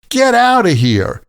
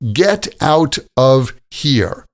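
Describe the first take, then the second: First: The words are run together in a casual way. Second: Each word is said clearly and separately.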